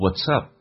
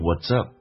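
First: The words are linked with a voiceless t. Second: The words are linked with a voiced t. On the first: "有连音，可以说成 What's up" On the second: "也可以把它浊化变成 What's up"

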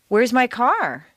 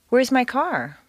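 First: It is an emotional question with a rising pitch. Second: It is a calm question, ending with a small drop.

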